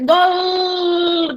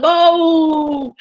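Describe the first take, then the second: First: The word ends with a clear L sound. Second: The word ends with a strong U vowel sound. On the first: The speaker calls it wrong. "ninguém grita assim" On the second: The speaker calls it right. "Com um baita de um U no final"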